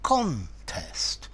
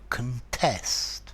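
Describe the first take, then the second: First: The stress is on the first syllable. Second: The stress is on the second syllable. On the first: It is used as a noun. "With the noun, the stress is in the first part, in the first syllable" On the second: It is used as a verb. "the verb to contest. The stress is in the second syllable"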